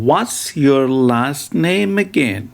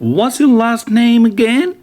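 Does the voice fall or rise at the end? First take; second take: fall; rise. First: The voice falls at the end. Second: The voice rises at the end. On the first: The speaker calls it wrong. "it doesn't sound good like this" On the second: The speaker calls it right. "The correct pronunciation is"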